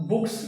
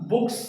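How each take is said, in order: No difference in how they are said.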